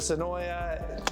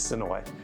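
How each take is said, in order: First: The name ends with an extra 'ya' syllable. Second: The name ends on an 'oy' sound. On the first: The speaker calls it wrong. "that's not the way to say it" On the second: The speaker calls it right. "It's Sonoy"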